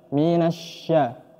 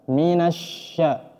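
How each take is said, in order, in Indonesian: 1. Konsonan di tengah adalah bunyi sh yang melebar. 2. Konsonan di tengah adalah bunyi sh yang melebar.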